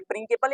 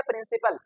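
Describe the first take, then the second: First: प्रिंसिपल said with a K, "prinkipal"; hard K in the middle of प्रिंसिपल; wrong hard-c pronunciation. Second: प्रिंसिपल said with an S, "prinsipal"; soft S in the middle of प्रिंसिपल; soft-c pronunciation. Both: Shown as a demonstration. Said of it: "क्या पढ़ेंगे?".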